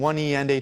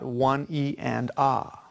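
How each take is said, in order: First: The last syllable is said like the letter A. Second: The last syllable is a soft open 'ah'. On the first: The speaker calls it wrong. "The letter A is a harsh syllable" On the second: The speaker calls it right. "It's a much softer syllable at the end"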